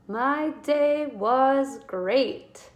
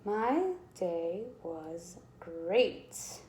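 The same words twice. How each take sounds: First: Louder, excited "my day was great"; teacher reading with excitement; excited exclamation. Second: Each word drawn out very slowly and softly; teacher writing the sentence out; slow stretched dictation. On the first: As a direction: read it with an exclamation point. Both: Shown as a demonstration. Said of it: "use an exclamation point".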